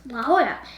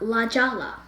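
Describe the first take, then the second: First: Jolla begins with an H sound. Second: Jolla begins with a J sound. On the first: The speaker calls it right. "now I know it's La Jolla" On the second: The speaker calls it wrong. "not La Jolla"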